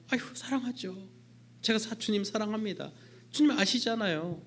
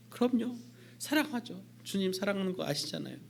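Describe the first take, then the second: First: Peter protesting. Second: Peter eager. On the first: Peter answering again. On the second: Peter answering Jesus. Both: Acted.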